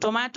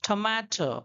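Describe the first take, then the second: First: The t is plain, with no puff of air. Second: The t is breathy, with a puff of air. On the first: This is the Indian way of saying it. "हम लोग बोलते हैं Indian people" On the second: This is the English way of saying it. "वो लोग कैसे बोलेंगे?"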